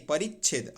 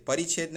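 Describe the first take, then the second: First: परिच्छेद with doubled च्छ; correct form परिच्छेद. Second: परिच्छेद with a single, light छ; wrong form परिच्छेद. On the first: Teacher says half च is needed, doubled-consonant form. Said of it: "आधा चार रहेगा". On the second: Teacher rejects the spelling, single-consonant form. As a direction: say परिच्छेद without doubling the छ. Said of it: "परिच्छेद नहीं". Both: Shown as a demonstration.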